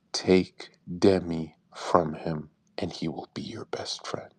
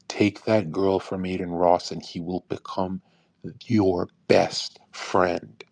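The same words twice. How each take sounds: First: Low, slow half-whisper telling a secret; hushed secret advice. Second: Lower, drawn-out stress on "your best friend"; slow emphatic advice. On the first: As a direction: lean in and whisper the secret slowly. Private advice, secret tip. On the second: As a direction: land "your best friend" slowly, word by word. Repeats advice with weight. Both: Retold or imitated.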